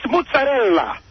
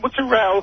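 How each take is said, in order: First: The final vowel is clearly pronounced. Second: The final vowel is dropped. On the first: The speaker calls it right. "you're missing the last vowel. It's mozzarella. You got to say the ella" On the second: The speaker calls it wrong. "not mozzarella"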